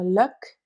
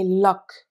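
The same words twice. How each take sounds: First: LUCK with a short central uh; voyelle de luck. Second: LOCK with an open, back o; voyelle de lock. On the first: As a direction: say "luck" slowly, with the uh vowel. (« luck » avec la voyelle centrale) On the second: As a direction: say "lock" slowly, with the open o vowel. (« lock » avec un o ouvert) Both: Shown as a demonstration. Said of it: "la différence entre les sons des voyelles".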